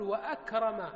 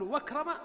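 First: وأكرم with a clear glottal stop, wa-akrim; وأكرم said with the hamza fully pronounced; correct pronunciation. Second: وكرم with the hamza dropped, raised in question; وكرم asked higher, the hamza swallowed; wrong pronunciation. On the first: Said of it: "تنطق بهمزة القطع". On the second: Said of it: "ولا تقول وأكرم". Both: Shown as a demonstration.

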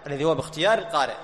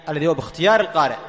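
First: Said in the usual way. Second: Lilting, fast sing-song phrasing. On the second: Shown as a demonstration. Teacher lilting a phrase for students, sing-song.

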